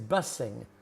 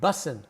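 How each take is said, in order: First: The ending is said with a full 'ing' sound. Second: The ending is said with the 'g' dropped.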